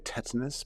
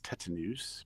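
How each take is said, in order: First: The word is said with an English pronunciation. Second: The word is said with a Latin pronunciation. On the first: "I guess we say tetanus" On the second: "the literal Latin pronunciation is tetanus"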